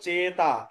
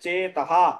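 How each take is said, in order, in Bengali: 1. শব্দটি সাধারণ স্বরধ্বনি দিয়ে শেষ হয়। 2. শব্দটি প্রতিধ্বনিত 'ha' ধ্বনি দিয়ে শেষ হয়। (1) "কিন্তু আমরা উচ্চারণ এইভাবে করব না" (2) "বিসর্গের পরে হ উচ্চারণ হবে"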